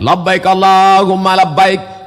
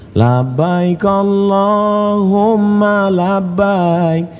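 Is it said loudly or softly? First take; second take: loudly; softly. First: It is said loudly and forcefully. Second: It is said softly and gently.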